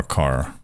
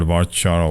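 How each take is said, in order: First: "varchar" with a hard k, var-car. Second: "varchar" with ch as in chart. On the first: Asking viewers which pronunciation they use, "varchar" as var-car. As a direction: say the second half of "varchar" like car. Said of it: "most Americans will say varkar". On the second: Asking viewers which pronunciation they use, "varchar" with ch. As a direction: say "varchar" as var-char. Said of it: "Do you guys call it". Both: Shown as a demonstration.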